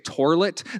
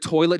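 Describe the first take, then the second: First: It is said with an r sound. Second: It is said without an r sound.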